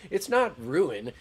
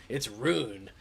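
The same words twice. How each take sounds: First: "ruin" as roo-in, slow and loud; mock corrector stressing "ruin" in two syllables, roo-in. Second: "rune" as one long syllable, roon; mock corrector drawing out "rune" as roon. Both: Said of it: "coming into my shit with ruin".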